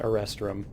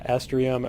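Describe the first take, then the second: First: It has an extra syllable, sounding like Erestrum. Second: It sounds like the supplement name Estrium. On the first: This is how the speaker says it. The speaker calls it right. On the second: This is how many other people say it. The speaker calls it wrong.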